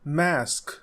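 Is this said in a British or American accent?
American. The vowel is a short American 'a'.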